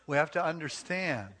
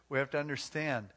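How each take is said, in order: Both takes have the same delivery.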